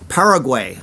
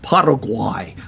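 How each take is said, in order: First: The name is said with an English pronunciation. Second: The name is said with a Spanish pronunciation. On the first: The speaker calls it wrong. "my friend always gets mad at me when I pronounce the Spanish countries wrong" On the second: The speaker calls it right. "so it's probably like Paraguay"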